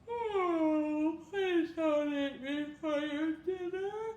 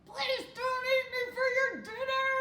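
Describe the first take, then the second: First: It is said in a tired tone. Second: It is said in an angry tone.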